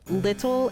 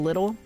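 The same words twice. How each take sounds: First: The middle consonant is a crisp T sound. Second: The middle consonant is a soft D sound. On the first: The speaker calls it right. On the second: The speaker calls it wrong.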